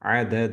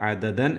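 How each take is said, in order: First: The word ends with a long vowel. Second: The word ends with an n sound. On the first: The reader stops at this word. "വഖഫ് ചെയ്യുമ്പോൾ അവിടെ സ്റ്റോപ്പ് ചെയ്യുമ്പോൾ അദദ എന്ന് തന്നെയാണ് നിർത്തേണ്ടത്" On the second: The reading continues into the next chapter. "അടുത്ത സൂറത്തിൻ്റെ ബിസ്മിയുമായി ചേർത്തി ഓതുമ്പോഴാണ്"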